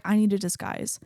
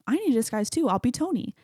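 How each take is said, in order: First: Lightly voiced, matter-of-fact statement; understated retold line, falling at the end; Thor. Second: Lightly voiced, higher-pitched retort; eager-to-join retold line, pitched up; Bruce. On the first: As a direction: state it simply at an everyday pitch. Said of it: "Thor's like". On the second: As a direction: chime in at a raised pitch. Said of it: "Bruce is like".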